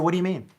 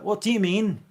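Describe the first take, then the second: First: It is said in an American accent. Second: It is said in a fake British accent.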